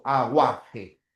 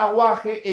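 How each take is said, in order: First: "Aguaje" lower, drawn out by syllable; "A-gua-je", letting the u be heard; sounded U. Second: Said in the usual way. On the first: Shown as a demonstration. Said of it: "porque la U se está pronunciando".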